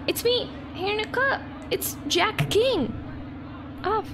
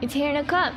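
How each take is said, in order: First: High, quick little cartoon guest voice; squeaky guest voice. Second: Said in the usual way. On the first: Gamer voices her guest introducing himself, high and squeaky. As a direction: play the tiny park guest greeting.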